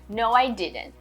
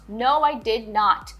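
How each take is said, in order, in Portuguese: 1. As palavras did e not são contraídas numa só. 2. As palavras did e not são ditas separadamente. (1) "eles vão falar didn't" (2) "as pessoas no dia a dia não falam assim separado"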